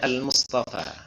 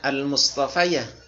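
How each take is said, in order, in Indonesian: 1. Kata itu berakhir dengan 'fa' panjang tanpa tambahan. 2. Kata itu berakhir dengan suku kata 'ya' tambahan. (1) "tapi dibaca al-Mustafa" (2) "tidak dibaca al-Mustafayah"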